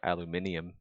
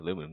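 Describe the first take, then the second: First: It is said the British way, five syllables. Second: It is said the American way, four syllables.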